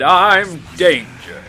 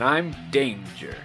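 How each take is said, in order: First: It is said in a put-on, righteous voice. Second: It is said in a plain, normal voice.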